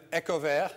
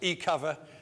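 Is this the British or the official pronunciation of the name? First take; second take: official; British. First: The name is said in its official pronunciation. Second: The name is said in the British pronunciation. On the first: This is how the company intends it. "I'm supposed to pronounce it" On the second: This is how some British people say it. "as some of the Brits call it"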